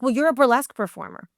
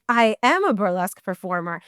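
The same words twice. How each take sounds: First: Quick, dismissive quoted retort; lightly imitated impatient producer; retold accusation. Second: "am" leaned on firmly, conceding the point; emphatic "am" in a retold comeback; stress on "am". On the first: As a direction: toss it out as if it settles the argument. Producer's argument, answered with emphasis. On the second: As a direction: hit "am" hard, as a retort.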